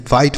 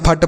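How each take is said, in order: First: फाइट with a long "eye" vowel; full "ai" glide in फाइट; correct fight pronunciation. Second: फट with a short "uh" vowel; wrong fight pronunciation. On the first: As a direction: say फाइट with ai, silent gh. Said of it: "आई का उच्चारण आई करना होगा". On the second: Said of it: "नहीं, फाइट पढ़ेंगे". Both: Shown as a demonstration.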